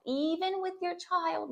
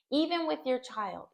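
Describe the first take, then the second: First: Put-on "even with your child" said higher and slower, leaning on "even"; slow down and lift "even" to drive it home; tender, insistent "even" stretched out high; emphatic repeat. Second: Said in the usual way. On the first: Shown as a demonstration.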